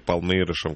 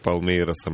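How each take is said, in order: First: The name is said with an 'sh' sound. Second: The name is said with an 's' sound.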